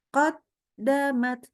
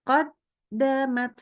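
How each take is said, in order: Both takes have the same delivery.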